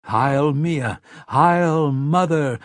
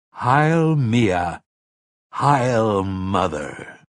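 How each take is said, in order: First: Higher, louder chanted hail; ringing, raised salute; crowd's cry. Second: Slow, ceremonial proclamation; solemn, drawn-out acclaim; leading a salute. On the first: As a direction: answer as a cheering crowd, drawn out. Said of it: "the rest cried". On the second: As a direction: lead the hail, stretching the words. Sayre leads the crowd's salute. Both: A narrator's reading.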